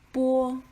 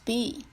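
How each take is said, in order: First: It sounds like the Chinese pinyin syllable. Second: It sounds like the English letter name. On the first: "but in Chinese phonology, it is pronounced as bo" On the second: "In English, it is pronounced as b"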